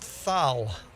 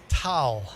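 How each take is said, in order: First: It begins with a th sound. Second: It begins with a plain t sound. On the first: The speaker calls it wrong. "Forget the th at the end. Not thal" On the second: The speaker calls it right.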